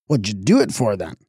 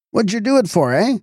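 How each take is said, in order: First: Said in the usual way. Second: Higher and sharper, demanding; irritated demand. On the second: A narrator's reading. Constable Winch repeats his question to Fotheringay, more irritated. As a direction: press him harder for an answer.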